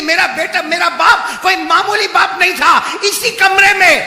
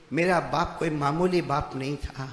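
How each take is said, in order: First: Imitating a loud, high outcry; retold cry. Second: Said in the usual way. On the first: Daughter proclaims her father was no ordinary man, retold cry. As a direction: cry it out at preaching volume. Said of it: "وہ بیٹی چیخ مار کے کہتی ہے".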